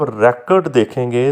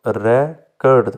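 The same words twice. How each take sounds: First: Said in the usual way. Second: record split as re, pause, cord; syllable by syllable. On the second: Shown as a demonstration. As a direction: break record into two separate syllables. (Record के दो syllable अलग-अलग) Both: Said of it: "इसमें दूसरा जो syllable".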